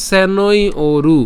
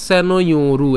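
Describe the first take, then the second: First: "সেনই ওরু" slow, higher and louder, "ওরু" set apart with a long o; broken up. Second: "সেনই ওরু" linked with a y glide, as one word; run together. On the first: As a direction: draw out "সেনই", then a distinct "ওরু". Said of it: "যেভাবে ভেঙে দিয়েছি". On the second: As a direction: join "সেনই ওরু" smoothly without a break. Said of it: "একসাথে উচ্চারণ করে ফেলতে পারি". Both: Shown as a demonstration.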